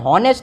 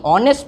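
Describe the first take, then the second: First: The word begins with an audible h sound. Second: The word begins with a vowel, h silent. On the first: The speaker calls it wrong. "हॉनेस्ट नहीं" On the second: The speaker calls it right. "ऑनेस्ट पढ़ेंगे इसे, ... जहाँ silent word हो"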